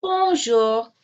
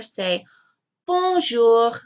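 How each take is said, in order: First: Put-on Bonjour said slowly again with the children; teacher repeats Bonjour; echoed for repeating. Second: Bonjour said clearly, bon-JOUR; teacher models bonjour; modelled for repeating. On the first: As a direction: repeat Bonjour along with the kids. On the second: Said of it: "This is a tongue twister". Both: Shown as a demonstration.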